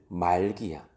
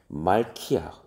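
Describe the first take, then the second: First: The consonant after mal is a plain g. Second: The consonant after mal is an aspirated k.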